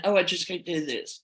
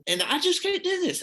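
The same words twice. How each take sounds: First: Said in the usual way. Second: Cracking much higher on "just can't do this"; voice breaking. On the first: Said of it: "having a pity party". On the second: Retold or imitated. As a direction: let the voice break up high on "just". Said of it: "was just crying".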